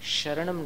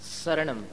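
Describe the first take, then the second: First: The word begins with an 'sh' sound. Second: The word begins with an 's' sound. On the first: The speaker calls it wrong. "शरणम नहीं" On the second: The speaker calls it right. "वो स जो है समता का स, साधु का स है"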